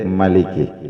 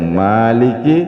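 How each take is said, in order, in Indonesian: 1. Vokal pertama dibaca pendek. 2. Vokal pertama dibaca panjang. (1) "ada yang pendek Maliki" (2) "ada yang panjang Maliki"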